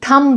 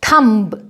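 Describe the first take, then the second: First: The final b sound is silent. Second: The final b sound is pronounced. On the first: The speaker calls it right. "थम बोलेंगे इसको" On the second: The speaker calls it wrong. "थंब नहीं"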